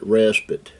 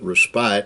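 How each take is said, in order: First: The last syllable sounds like 'pit'. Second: The last syllable rhymes with 'spite'. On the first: This is how British speakers say it. "The British, I think, uh, pronounce it respite" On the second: This is the speaker's own way of saying it. "I pronounce it respite because it's got an E on the end of it"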